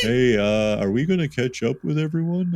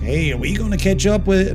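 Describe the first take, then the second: First: It is said in a dopey voice. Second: It is said in Lawrence's voice.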